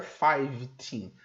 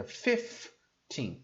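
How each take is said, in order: First: Put-on five teen with long I and a V; wrong FIVE in fifteen. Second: Put-on fifteen as FIF-TEEN, short I and F; slow fifteen, FIF then a long TEEN; F instead of V. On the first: Teacher showing the mistake, five teen with full FIVE. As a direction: say FIVE whole before TEEN in five teen. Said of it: "Ele não fica five teen". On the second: Teacher correcting five teen, slow FIF-TEEN for fifteen. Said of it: "Ele muda o V F". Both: Shown as a demonstration.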